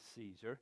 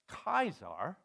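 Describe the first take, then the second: First: The word begins with an s sound. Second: The word begins with a k sound.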